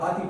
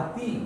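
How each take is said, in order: First: The final vowel sounds like 'ay'. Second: The final vowel sounds like 'ee'. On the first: The speaker calls it wrong. "हम तो आती पढ़ते हैं, this is wrong" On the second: The speaker calls it right. "जबकि वो ई की आवाज़ है"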